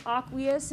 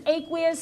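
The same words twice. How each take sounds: First: Aqueous said AH-kwee-us, open "ah" in the first syllable; "aqueous" starting with an open "ah" sound, as in "father"; alternative pronunciation. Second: Aqueous said AY-kwee-us, long A in the first syllable; "aqueous" with an "ay" sound at the start, as in "day"; standard pronunciation. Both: Shown as a demonstration. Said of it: "some people pronounce it aqueous".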